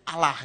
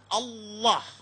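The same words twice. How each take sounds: First: The word is said lightly, in plain Indonesian style. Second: The word is said heavily, in Arabic-influenced style. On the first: "ringan gitu. Bacanya itu ringan"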